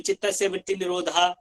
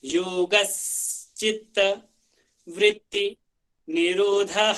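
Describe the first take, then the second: First: Quick चित्तस्य with the final निरोधा cut short, no final h; wrong pronunciation. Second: योगश्चित्त with a clear श्च and निरोधः ending in a breathy h; correct pronunciation. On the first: Teacher imitating students' common mistake, quick careless mispronunciation. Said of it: "कुछ लोग चित्तस्य वगैरह बोल देते हैं". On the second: Teacher showing the proper way after the mistake, careful recitation. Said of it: "आपको proper जो है वही बोलने की कोशिश करनी है". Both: Shown as a demonstration.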